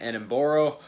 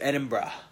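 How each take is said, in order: First: It is said in another outsider's guessed pronunciation. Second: It is said in the local Scottish pronunciation. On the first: This was the second guess at the name. The speaker calls it wrong. "then Edinburgh. None of those are right" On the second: This is how a true Scotsman says it. The speaker calls it right. "that's how you pronounce it if you're a true Scotsman"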